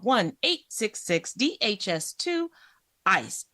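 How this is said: It is said in a smooth airline announcer voice.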